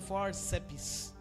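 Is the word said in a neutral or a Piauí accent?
neutral. It is said in a neutral, ordinary accent. "se você falar normal é"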